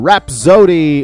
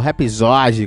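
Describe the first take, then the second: First: The name is said with an English-like pronunciation. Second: The name is said with a Brazilian Portuguese pronunciation.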